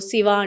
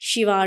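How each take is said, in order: First: Shiva is said the Tamil-Malayalam way. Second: Shiva is said the Telugu way. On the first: This is how the other language's speakers say it. "వాళ్ళు శివ అంటారు" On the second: This is how our own speakers say it. "మనము శివ అంటాము"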